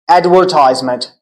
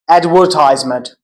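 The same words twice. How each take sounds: First: It is said with an American accent. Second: The same.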